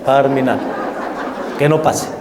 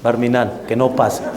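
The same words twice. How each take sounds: First: Laughing through the words; laughing repeat. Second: Said in the usual way. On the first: Real, not acted. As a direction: repeat it while chuckling. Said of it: "laugh heard on repeat". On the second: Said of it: "Barminan, que no pase (repeated laughing)".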